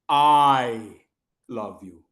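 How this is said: The stress falls on the first word. The speaker, not someone else, is the one who loves. "that means that I love you, not Mohit"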